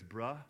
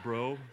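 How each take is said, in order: First: The word ends with a short 'uh' vowel. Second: The word ends with a long 'oh' vowel. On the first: The speaker calls it right. "it's bruh" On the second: The speaker calls it wrong. "I was saying it wrong"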